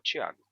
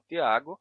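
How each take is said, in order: First: The first consonant sounds like ch. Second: The first consonant is a plain t sound. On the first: This is the newer form of the name. "a forma nova" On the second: This is the older form of the name. "a forma original"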